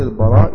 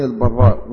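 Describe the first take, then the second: First: البراء with a single light r. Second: البراء with a doubled, held r. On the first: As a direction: say البراء without doubling the ر. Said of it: "كل اللي ضبطوا البراء كلهم ضبطوه بالتخفيف". (البراء بتخفيف الراء) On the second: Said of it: "مفيش حد ضبطه بالتشديد خالص". (البراء بتشديد الراء) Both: Shown as a demonstration.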